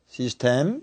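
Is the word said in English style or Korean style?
Korean. It is said with even Korean loanword syllables. "이건 한국어입니다"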